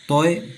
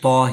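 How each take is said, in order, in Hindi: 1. नाम के अंत में एक अतिरिक्त ग्लाइड की आवाज़ जुड़ती है। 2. नाम सादे 'o' स्वर पर खत्म होता है। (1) "तो को तोए पढ़ना गलत है।" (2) "तो को तो ही पढ़ा जाता है।"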